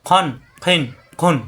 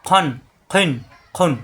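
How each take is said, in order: Both takes have the same delivery.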